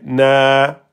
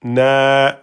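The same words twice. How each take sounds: First: The vowel is long, held for two beats. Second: The vowel is long, held for two beats.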